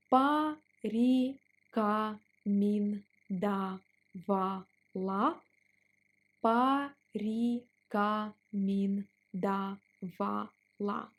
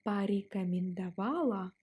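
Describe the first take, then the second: First: Порекомендовала stretched out; slow drill on порекомендовала. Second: Said in the usual way. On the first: Shown as a demonstration. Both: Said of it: "Let's pronounce it slower".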